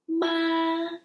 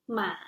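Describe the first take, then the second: First: The pitch stays high and level. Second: The pitch dips low then rises.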